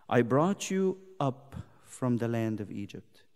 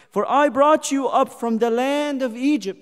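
First: Verse said low and soft; quiet pulpit reading; hushed verse. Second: Verse rung out higher and louder; full-voiced pulpit proclamation; proclaimed verse. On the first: Acted. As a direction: lay the line down gently. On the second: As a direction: proclaim it to the hall. Same verse proclaimed loud.

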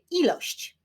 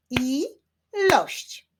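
First: Said in the usual way. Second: "Ilość" split as I-lość, pitched higher; syllable by syllable. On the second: Shown as a demonstration. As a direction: sound out "Ilość" in two spaced beats. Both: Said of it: "wyklaszczmy sylaby w wyrazie ilość".

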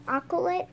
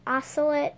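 First: Octolet with a hard K sound, AH-kuh-lit; hard C pronunciation. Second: Ocelot with an S sound, AH-suh-lit; soft C pronunciation. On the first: Vlogger unsure of the cat's name, Octolet with a hard K. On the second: Vlogger offering the other pronunciation, Ocelot with an S sound. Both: Shown as a demonstration. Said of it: "I don't know how it's pronounced".

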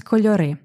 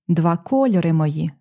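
First: Кольори stressed on the last syllable, кольорИ; correct dictionary stress. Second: Кольори stressed on the second syllable, кольОри, as in the song; poetic song stress. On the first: Teacher gives students the correct stress of кольори. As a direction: land the stress on the final И of кольори. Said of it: "Правильний наголос —". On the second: Teacher shows the song's shifted stress in кольори. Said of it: "створюємо ефект ... за допомогою наголосу". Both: Shown as a demonstration.

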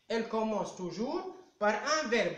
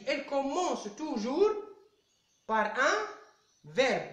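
First: Said in the usual way. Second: Broken up with pauses before par un and verbe; Elle commence toujours, pause, par un, pause, verbe, spaced out to stress the rule; paused for emphasis. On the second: Shown as a demonstration. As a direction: toujours lifted and verbe dropped, each chunk set apart by a pause. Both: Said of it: "Je vous rappelle".

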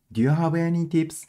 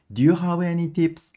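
No difference in how they are said.

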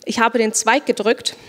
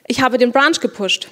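First: Stiff literal translation, Zweig for branch, gedrückt for pushed; literal word-by-word German. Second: "Ich habe den Branch gepusht" with English branch and pushed kept; natural developer German. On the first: Teacher showing students the wrong, literal German. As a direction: say "Ich habe den Zweig gedrückt" as a clumsy literal calque. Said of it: "But this is bad. That's not how we speak". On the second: Teacher showing students how developers really say it. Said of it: "We actually say". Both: Shown as a demonstration.

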